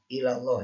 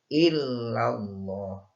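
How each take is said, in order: First: The l sound in the middle is short. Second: The l sound in the middle is held long. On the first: The speaker calls it wrong. "banyak yang kurang tepat" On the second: The speaker calls it right. "harusnya ini illallah"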